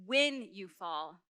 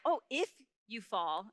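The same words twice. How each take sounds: First: "When" drawn out slowly, low and certain; stress on WHEN. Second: "if" leaned on as the doubtful word; stress on IF. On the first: Preacher correcting the question, slow stress on "When". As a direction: lean long on "When", as a given. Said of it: "It's like, "When you fall". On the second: Preacher rejecting the wrong question, stress on "if". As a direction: hit "if", then let "you fall" follow slowly. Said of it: "his question to you isn't like". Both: Shown as a demonstration.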